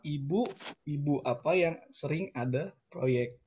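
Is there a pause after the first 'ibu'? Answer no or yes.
yes. It is read slowly with a pause after ibu. It asks which ibu (capital) often has projects. "kalau kita bacanya pelan-pelan"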